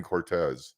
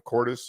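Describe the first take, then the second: First: "Cortez" said as cor-TEZ, stressed on the second syllable; mistaken pronunciation. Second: "Cortes" with an s at the end, stressed on the first syllable; checking pronunciation. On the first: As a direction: say "Cortez" with a z at the end. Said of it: "I've been saying Cortez". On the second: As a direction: ask "Cortes?" as COR-tess. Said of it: "how do you pronounce your last name?". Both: Shown as a demonstration.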